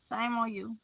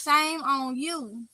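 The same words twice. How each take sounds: First: A quieter, trailing playful scold; softer mock shaming. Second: Half-joking tsk-tsk, slowed right down; slow mock shaming. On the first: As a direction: Shame on you dropped much softer. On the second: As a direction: Shame on you drawn out at x0.5, teasing. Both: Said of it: "I'm just playing".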